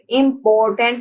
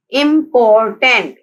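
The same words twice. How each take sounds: First: Said in the usual way. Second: important slowly split as im-por-tant; syllable by syllable. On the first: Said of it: "three syllables हैं". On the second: Shown as a demonstration. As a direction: sound out important in three firm beats. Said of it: "important के three syllables हैं".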